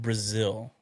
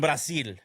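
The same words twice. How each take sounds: First: It is said with an American English accent. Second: It is said with a Spanish accent. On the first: "For those who didn't understand what I said" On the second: "I'm Mexican, so I have that accent. I could pull it off"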